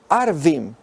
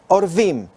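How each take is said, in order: First: The first vowel is an 'a' sound. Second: The first vowel is an 'o' sound. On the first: It means Arabs or Bedouins. "si lo pronunciamos de otra manera" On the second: It means ravens. "esa sería la pronunciación que se ha mantenido tradicionalmente"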